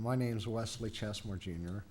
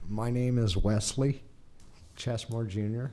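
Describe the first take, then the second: First: It is said quieter and faster. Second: It is said louder and slower.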